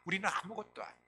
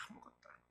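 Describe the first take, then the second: First: Said in the usual way. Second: Breathy whispered repeat of 아무것도 아니에요. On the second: Shown as a demonstration. Preacher repeating the line softly to the congregation, whispered. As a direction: drop 아무것도 아니에요 to a near-silent whisper.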